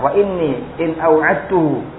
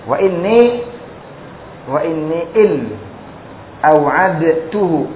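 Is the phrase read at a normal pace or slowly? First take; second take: normal; slowly. First: The phrase is read at a normal pace. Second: The phrase is read slowly.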